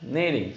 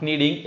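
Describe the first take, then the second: First: Kneading starting straight on the N; silent K. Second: Kneading with the K sounded before N; wrong pronunciation. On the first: Teacher showing learners the rule, kneading with silent K. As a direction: say kneading with no K sound. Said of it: "silent is the word K". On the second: Teacher showing learners the error, kneading with K sounded. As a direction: say kneading with a hard K in front. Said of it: "it's called not kneading". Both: Shown as a demonstration.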